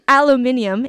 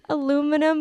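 First: The word is said with five syllables. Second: The word is said with four syllables. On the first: This is the British form of the word. "if you're in the UK" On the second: This is the American form of the word. "because I'm from the US"

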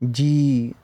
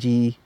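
First: The vowel is long with a slight final turn. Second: The vowel is short with no final turn. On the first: It refers to the subtle mind or life. "so we make the bihari longer" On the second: It is a term of respect. "if it was without the ara, then it'd be a term used in respect"

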